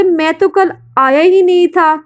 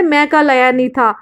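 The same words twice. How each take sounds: First: तो and ही lifted higher for emphasis; stress on तो and ही. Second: Said in the usual way. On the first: Shown as a demonstration. Teacher showing students emphasis, तो and ही stressed high. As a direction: lean on तो and ही, a bit higher. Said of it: "जब आप बोलते". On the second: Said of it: "बल देकर".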